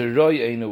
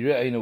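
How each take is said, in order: First: The first vowel is an 'o' sound. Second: The first vowel is a short 'e' sound. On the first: The speaker calls it wrong. "with a chaylim" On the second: The speaker calls it right. "It should be re'enu with a shva"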